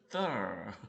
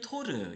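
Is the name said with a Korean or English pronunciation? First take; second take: English; Korean. First: The name is pronounced the English way. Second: The name is pronounced the Korean way. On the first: "영어 발음은 Thor" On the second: "우리끼리는 토르"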